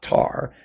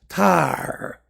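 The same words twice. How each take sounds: First: The A vowel is said plainly. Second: The A vowel is given extra emphasis. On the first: The speaker calls it wrong. "her last name is not Tar" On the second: The speaker calls it right. "You have to accent the A"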